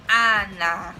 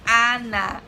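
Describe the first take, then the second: No difference in how they are said.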